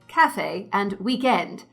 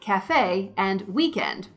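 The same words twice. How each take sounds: First: The words have the usual British stress pattern. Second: The words have the usual American stress pattern. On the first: "most British English speakers would say" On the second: "most Americans would say"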